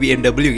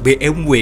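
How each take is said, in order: First: The letters are said the non-German way. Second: The letters are said the German way. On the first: The speaker calls it wrong. "bukan B M W" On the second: The speaker calls it right. "orang Jerman itu nyebutnya"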